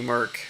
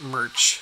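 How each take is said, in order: First: The name ends with a k sound. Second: The name ends with a ch sound. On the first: The speaker calls it wrong. "I'm used to like the ch being a k sound" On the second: The speaker calls it right. "I think it's pronounced merch"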